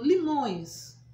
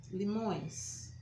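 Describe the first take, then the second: First: Limões loud, nasal ões stressed. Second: Said in the usual way. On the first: Shown as a demonstration. (limões com ões nasal, forte) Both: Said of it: "é o plural de limão".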